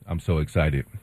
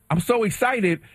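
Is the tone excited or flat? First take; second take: flat; excited. First: It is said flatly, without emotion. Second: It is said with excitement.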